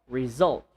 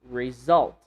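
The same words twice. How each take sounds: Both takes have the same delivery.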